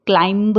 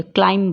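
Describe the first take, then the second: First: क्लाइंब with a released final b; क्लाइंब, b voiced at the end; sounded B. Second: क्लाइंब ending on m; क्लाइंब with no final b; silent B. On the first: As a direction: say क्लाइंब as klaim-buh. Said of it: "क्लाइंब नहीं बोलते". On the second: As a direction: say क्लाइंब as klaim. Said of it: "क्लाइंब बोलते हैं". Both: Shown as a demonstration.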